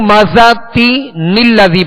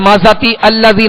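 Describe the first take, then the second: First: An added n sound links the two words. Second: The words join without any n sound between. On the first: The speaker calls it right. "बल्कि जब मिलाएंगे तो" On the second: The speaker calls it wrong. "नहीं पढ़ेंगे"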